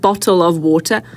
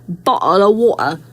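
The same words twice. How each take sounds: First: The T sounds are clearly pronounced. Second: The T sounds are dropped. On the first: "Instead of bottle of water" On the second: "take your T's out"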